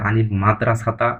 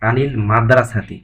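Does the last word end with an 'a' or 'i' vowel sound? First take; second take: a; i. First: The last word ends with an 'a' vowel. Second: The last word ends with an 'i' vowel. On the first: The speaker calls it wrong. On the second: The speaker calls it right.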